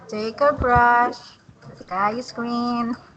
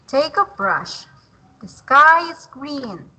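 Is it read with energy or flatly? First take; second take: flatly; energy. First: It is read flatly, without energy. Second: It is read with lively energy.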